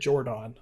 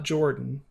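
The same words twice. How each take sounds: First: The name is said the way its owner said it. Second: The name is said the common English way. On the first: This is how the man himself said his name. The speaker calls it right. "he pronounced it Jordan" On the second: This is how most people say the name. The speaker calls it wrong. "it's not Jordan. I know that's how most of us pronounce it"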